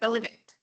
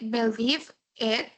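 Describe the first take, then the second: First: The two words are linked into one. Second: The two words are said separately. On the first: "to sound more natural, we can say it like together" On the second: "We can say believe it separate"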